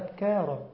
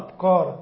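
First: The middle consonant is a plain k sound. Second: The middle consonant is a deep q sound. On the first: The speaker calls it right. "لا أبكار، الله يهديك بالكاف" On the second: The speaker calls it wrong. "البعض ينطق للكاف قاف"

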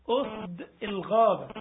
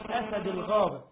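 First: The first word is said as 'usd'. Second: The first word is said as 'asad'. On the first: It means lions, the plural. The speaker calls it right. "أسد الغابة مش أسد الغابة" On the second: It means a single lion. The speaker calls it wrong. "مش أسد الغابة"

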